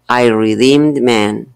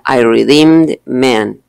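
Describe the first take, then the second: First: The d blends straight into man. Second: The d is fully released before man. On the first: The speaker calls it right. "Los americanos lo que hacen es juntarlos" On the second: The speaker calls it wrong. "yo no diría I redeemed man, porque tendría que hacer como una pausa para pronunciar la D y la M"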